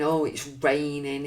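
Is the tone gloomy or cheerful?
gloomy. It is said in a gloomy, dreary tone.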